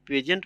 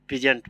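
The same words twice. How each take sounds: First: पेजेंट with a short e, like pedʒent; पेजेंट the way some students read it; first variant reading. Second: पीजेंट with a long ee, like peezent; पीजेंट the way other students read it; second variant reading. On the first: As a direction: say पेजेंट as pe-jent. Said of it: "कुछ लोग पेजेंट पढ़ते हैं". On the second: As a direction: say पीजेंट as pee-jent. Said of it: "पीजेंट पढ़ते हैं". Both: Shown as a demonstration.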